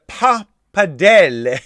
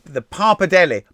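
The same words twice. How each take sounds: First: "pappardelle" broken up in a showy Italian accent; mock Italian accent. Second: Said in the usual way. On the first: Shown as a demonstration. Quiz host who is not Italian, attempting an Italian accent. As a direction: try an Italian accent, leaning on the "dell". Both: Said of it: "I'm not Italian anyway".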